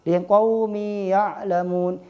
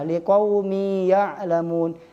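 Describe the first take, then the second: Both takes have the same delivery.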